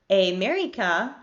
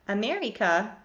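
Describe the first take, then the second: First: The unstressed vowels are full and tense. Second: The unstressed vowels are full and tense.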